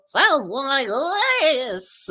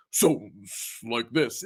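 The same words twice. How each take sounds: First: High, drawn-out object voice; piano's voice. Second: Low, slow object voice; hammer's voice. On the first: Showing chat a household piano's voice, high-pitched. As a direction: voice a piano up high, stretching the end. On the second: Showing chat a household hammer's voice, low and slow. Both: Shown as a demonstration. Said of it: "give it a voice".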